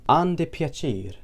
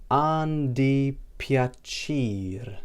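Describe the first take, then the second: First: "An di piacere" said as one clear phrase, higher pitch; Maltese phrase. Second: An di piacere very slowly, syllable by syllable; slow demonstration. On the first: Teacher shows nice to meet you, clearly pronounced Maltese. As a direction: model An di piacere at natural speed. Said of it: "we'd say". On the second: Teacher repeats nice to meet you for learners, slowly drawn out. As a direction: stretch out every syllable of An di piacere. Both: Shown as a demonstration.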